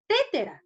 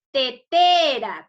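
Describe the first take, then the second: First: "Tétera" high, stressed on the first syllable; misplaced stress. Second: "Tetera" loud and slow, stressed on the second te; correct stress. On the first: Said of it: "Yo cómo pronunciar". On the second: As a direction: say "Tetera" as te-TE-ra, middle syllable held. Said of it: "Cómo se debe pronunciar". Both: Shown as a demonstration.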